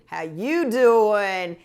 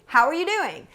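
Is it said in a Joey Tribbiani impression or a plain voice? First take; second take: Joey impression; plain voice. First: It is said in a Joey Tribbiani impression. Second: It is said in a plain, ordinary voice.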